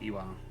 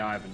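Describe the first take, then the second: First: The name is said with a Russian pronunciation. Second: The name is said with an English pronunciation. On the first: "in actual Russian, it is more like Iwan" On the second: "We say Ivan"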